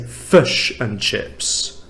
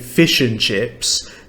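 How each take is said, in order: First: The vowels in fish and chips sound like uh. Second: The vowels in fish and chips sound like ih. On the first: "Someone from New Zealand might say fish and chips" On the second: "I say fish and chips"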